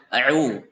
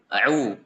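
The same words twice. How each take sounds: The two takes are said the same way.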